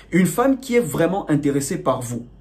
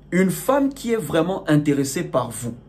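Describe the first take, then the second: The two takes are said the same way.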